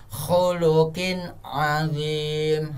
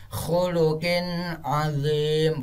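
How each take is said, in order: First: "khuluqin azim" slowly, N short and clear, no hum; correct izhar reading. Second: "khuluqin azim" with the N held in a nasal hum; wrong humming reading. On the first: Teacher correcting pupils, "khuluqin azim" slow without hum. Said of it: "langsung tanpa dengong". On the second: Teacher mimicking pupils' mistake, "khuluqin azim" with hummed N. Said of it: "bukan seperti itu". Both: Shown as a demonstration.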